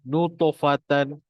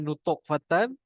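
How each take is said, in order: First: The word runs together smoothly without a break. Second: The word is broken apart at the stopped letter. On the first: The speaker calls it right. "tapi nutofatan" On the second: The speaker calls it wrong. "Ingat jangan nutok fatan"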